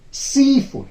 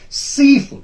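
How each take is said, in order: First: The stress is on the first part. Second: The stress is on the first part.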